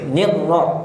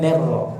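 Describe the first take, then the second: First: The first vowel is a clear 'i' sound. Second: The first vowel is an 'e' sound. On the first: The speaker calls it right. "Coba nir" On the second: The speaker calls it wrong. "bukan ner ra"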